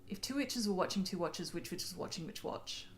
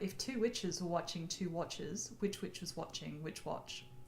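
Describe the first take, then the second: First: It is said at a fast pace. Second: It is said at a slower pace.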